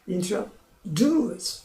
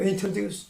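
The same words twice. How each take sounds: First: The stress is not on the first syllable. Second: The stress is on the first syllable. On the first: The speaker calls it right. "삼음절이라 introduce 이렇게만 들립니다" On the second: The speaker calls it wrong. "한국 사람들 그래요. introduce 첫음이 강해요. 안 됩니다"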